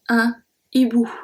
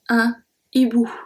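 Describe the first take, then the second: First: The article stays separate from the noun. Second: The article stays separate from the noun.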